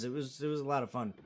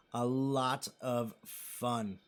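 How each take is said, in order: First: Said in the usual way. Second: Very slow, soft and lower; slow emphatic repeat. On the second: Real, not acted. Streamer savoring memories of the trip, slow and emphatic. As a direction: draw out each word of "A lot of fun", softly.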